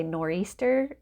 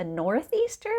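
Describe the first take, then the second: First: "nor'easter" said the New England way, with no "th"; local pronunciation. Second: "northeaster" said in full, with the "th"; own old pronunciation. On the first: Shown as a demonstration. Vlogger naming the local storm word, New England pronunciation. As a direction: clip it to "nor'easter", dropping the th sound. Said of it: "in the New England area we call a". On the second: Retold or imitated. Newcomer recalling how she first said it, full pronunciation. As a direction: spell out every sound of "northeaster". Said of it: "I called it a northeaster".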